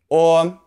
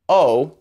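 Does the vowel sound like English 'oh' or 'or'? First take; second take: or; oh. First: The vowel is a rounded 'or' sound. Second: The vowel is a plain English 'oh' sound. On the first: The speaker calls it right. "in Chinese, the O sound is or" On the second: The speaker calls it wrong. "don't say O"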